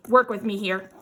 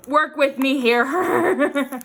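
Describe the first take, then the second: First: Said in the usual way. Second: Slow, louder plea breaking into a laugh; exasperated plea. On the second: Real, not acted. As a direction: drag it out loudly, laughing at the struggle. Struggling with stubborn cling wrap.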